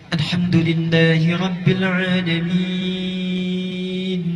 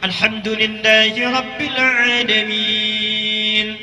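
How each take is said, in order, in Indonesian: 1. Dibaca dengan lambat, vokalnya dipanjangkan. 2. Dibaca dengan tempo sedang, pertengahan. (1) "tiwal, yang paling panjang" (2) "Itu disebut dengan mutawassit, pertengahan"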